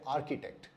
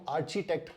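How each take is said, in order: First: The first syllable sounds like ark. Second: The first syllable sounds like arch. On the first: The speaker calls it right. "सही pronunciation है आर्किटेक्ट" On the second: The speaker calls it wrong. "ये उच्चारण भी सही नहीं है"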